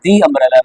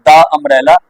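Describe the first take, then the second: First: "the umbrella" with the as "dee"; long ee in "the" before umbrella; correct "the". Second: "the umbrella" with the as "duh"; wrong "the". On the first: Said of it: "ऐसे इसे बोलेंगे". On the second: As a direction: open duh vowel in "the" before umbrella. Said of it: "not the umbrella". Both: Shown as a demonstration.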